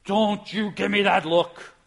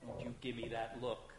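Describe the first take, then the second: First: Louder, slow, mock-stern rebuke; hammed-up parental glare in God's voice; mock scolding God. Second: Much softer, low, menacing mom; quiet threat from a mother; stern mom warning. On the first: God imagined scolding the angels, loud and slow. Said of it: "God has to say". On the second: Retold or imitated. Mother scolding her child for a sullen look, quietly. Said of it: "you ever hear mom say".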